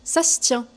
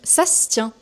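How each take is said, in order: First: It is said fast with sounds run together. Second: It is said fast with sounds run together.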